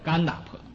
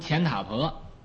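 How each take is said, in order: First: The first syllable starts with a 'g' sound. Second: The first syllable starts with a 'ch' sound. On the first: The speaker calls it right. "现在我就改叫甘达婆" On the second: The speaker calls it wrong. "我以前呢读钱塔婆"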